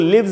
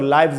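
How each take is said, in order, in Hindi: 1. स्वर छोटे 'i' जैसा है। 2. स्वर 'eye' जैसा है। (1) "इसको लिव्स भी पढ़ते हैं" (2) "और लाइव्स भी पढ़ते हैं"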